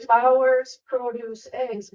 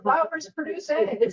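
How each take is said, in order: First: The three words are separated like a list. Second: The words run together quickly as one sentence. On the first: The farm sells flowers, produce and eggs. The speaker calls it right. "It's supposed to say" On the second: The flowers themselves lay eggs. The speaker calls it wrong. "when you read it quickly"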